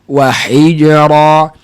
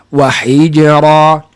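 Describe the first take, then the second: Both takes have the same delivery.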